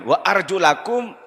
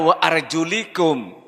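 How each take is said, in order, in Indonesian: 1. Vokal setelah 'arjul' adalah 'a'. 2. Vokal setelah 'arjul' adalah 'i'. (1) "Wa arjulakum ini atof kepada wujuhakum" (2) "Bukan dibaca wa arjulikum"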